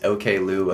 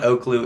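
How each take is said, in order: First: The name begins with the letters O and K. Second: The name begins with the single syllable 'oak'. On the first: The speaker calls it right. "it is OK Lou, apparently" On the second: The speaker calls it wrong. "it is not Oaklou"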